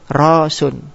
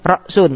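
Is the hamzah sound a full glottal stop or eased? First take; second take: eased; full stop. First: The word has no glottal stop, it flows smoothly. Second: The word has a full glottal stop inside it.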